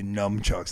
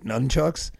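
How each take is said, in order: First: The first syllable ends with an m sound. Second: The first syllable ends with an n sound. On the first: The speaker calls it wrong. "all these kids would always say numchucks" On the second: The speaker calls it right. "None, right?"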